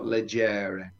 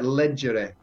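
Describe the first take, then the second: First: The stress is on the second syllable. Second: The stress is on the first syllable. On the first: The speaker calls it wrong. "not on the penultimate syllable" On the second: The speaker calls it right. "it's on the first syllable"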